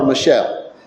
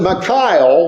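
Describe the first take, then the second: First: The name ends with a 'shell' sound. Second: The name ends with a 'cal' sound. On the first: The speaker calls it wrong. "I call her Michelle. ... it's not how you say it" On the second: The speaker calls it right. "Michal was her name. ... Michal is basically a more appropriate name to say her"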